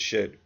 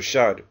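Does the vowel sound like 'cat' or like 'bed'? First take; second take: bed; cat. First: The vowel is mid, as in 'bed'. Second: The vowel is open, as in 'cat'.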